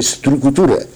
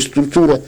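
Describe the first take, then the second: First: The consonant before the t is pronounced heavily. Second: The consonant before the t is pronounced lightly. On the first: "pronunciaba muy acusadamente" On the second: "en vez de"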